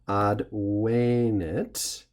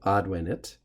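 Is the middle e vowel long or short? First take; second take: long; short. First: The middle e vowel is long. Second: The middle e vowel is short. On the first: It is the perfect tense: it has come. "this e becomes long, and so the pronunciation has to change accordingly" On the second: It is the present tense: it comes. "which would be the present tense"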